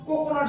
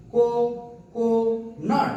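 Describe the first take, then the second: First: Said in the usual way. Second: "কো-কো-নাট" in three slow, separate beats; split into syllables. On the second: Shown as a demonstration. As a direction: pause after each syllable of "কো-কো-নাট". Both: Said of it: "তিনবারে".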